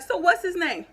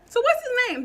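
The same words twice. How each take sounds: First: Loud, higher challenge; angry demand. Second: Much higher and louder repeat; the same question pushed up into a yell; angrier repeated demand. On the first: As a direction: push her to name him, loud and high. Demanding the woman name the child. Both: Retold or imitated.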